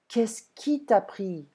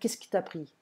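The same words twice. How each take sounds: First: The words are said slowly and kept separate. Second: The words are said fast and run together. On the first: "ils ne vont pas parler très lentement" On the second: "on va manger les mots, on va les fusionner"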